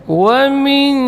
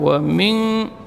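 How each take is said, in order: First: The nasal sound is light and thin. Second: The nasal sound is heavy and thick. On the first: The speaker calls it right. "Ikhfa di sini dibaca tipis" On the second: The speaker calls it wrong. "Jangan ditebalkan, bukan wa min, tidak boleh ditebalkan seperti itu"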